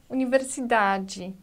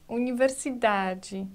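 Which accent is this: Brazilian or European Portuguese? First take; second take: Brazilian; Brazilian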